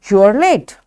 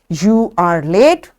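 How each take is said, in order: First: The verb is reduced and joined to the pronoun. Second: The verb is said as a separate full word.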